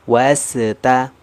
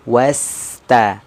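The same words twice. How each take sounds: First: The s sound stops with a bounce. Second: The s sound flows smoothly into the next sound. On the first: The speaker calls it wrong. "Atau terpantul" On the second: The speaker calls it right. "mengalirnya suara sampai kita mengucapkan huruf berikutnya"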